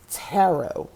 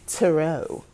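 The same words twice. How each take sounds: First: TAROT said "TAIR-oh", stress up front; alternative pronunciation. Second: TAROT said "tuh-ROH", stress on the end; silent-T pronunciation. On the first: Vlogger offering another way, TAROT said TAIR-oh. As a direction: say TAROT as TAIR-oh, silent final T. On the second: Vlogger introducing tarot cards, TAROT said tuh-ROH. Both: Shown as a demonstration. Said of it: "however you wanna say it".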